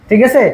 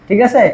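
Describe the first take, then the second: The two takes are said the same way.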